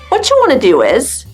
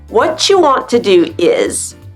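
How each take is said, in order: First: The words are reduced and run together. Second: Each word is pronounced fully and separately.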